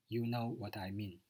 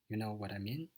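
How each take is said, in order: First: The pitch falls at the end. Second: The pitch rises at the end. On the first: It is a statement. "it shows the statement, ... so there's a final fall in the tune" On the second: It is a question. "if instead you say this as a question, ... there's a rise at the end of the sentence"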